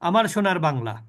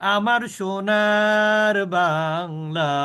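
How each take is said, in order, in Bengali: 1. স্বরধ্বনিগুলো ছোট রাখা হচ্ছে। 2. স্বরধ্বনিগুলো লম্বা করে টানা হচ্ছে। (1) "তাহলে কিন্তু মাদ হলো না।" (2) "এটা কিন্তু মাদ।"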